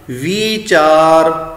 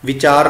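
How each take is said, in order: First: Sung, ਵੀਚਾਰ very slow with a long held ee. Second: ਵਿਚਾਰ said with a quick short i; short i, wrong way. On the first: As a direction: sing ਵੀਚਾਰ, stretching the ee. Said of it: "ਉਚਾਰਨ ਹੋਏਗਾ ਵੀਚਾਰ". (sung, ਵੀਚਾਰ ਲਮਕਾ ਕੇ ਗਾ ਕੇ) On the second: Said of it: "ਨਹੀਂ". (ਛੋਟੀ ਸਿਹਾਰੀ ਨਾਲ ਗਲਤ ਵਿਚਾਰ) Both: Shown as a demonstration.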